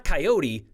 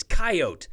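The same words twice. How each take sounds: First: "coyote" said kai-OH-tee; three-syllable pronunciation. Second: "coyote" said KAI-oat, silent final e; two-syllable pronunciation. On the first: Viewer's email rejecting this way, "coyote" pronounced kai-OH-tee. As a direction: sound the final e of "coyote" as tee. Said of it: "It's not coyote". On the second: Viewer insisting by email, "coyote" pronounced KAI-oat. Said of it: "it's coyote". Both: Retold or imitated.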